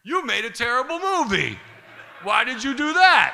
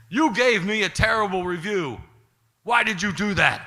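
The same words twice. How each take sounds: First: Mock-outraged yell, stretched at the end; mirrored angry retort. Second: Imitating an aggrieved, raised-voice complaint; higher, hurt and angry, acted out; upset accusation. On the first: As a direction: throw the accusation right back, louder. Throws the accusation back, mirrored. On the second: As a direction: loudly demand an explanation. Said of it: "Paulie really did not like that".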